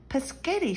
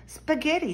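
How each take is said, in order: First: Put-on "Paschetti" said as pa-SHET-ti, high, the way a toddler garbles it; little George mangles spaghetti into "Paschetti"; toddler mispronunciation. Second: "Spaghetti" said properly, high and bright as spa-GHET-ti; excited "Spaghetti" pronounced clearly; said correctly. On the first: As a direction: babyish "Paschetti", much higher. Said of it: "shouted George". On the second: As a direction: Peppa calls out "Spaghetti" with every sound right. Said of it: "shouted Peppa". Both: A narrator's reading.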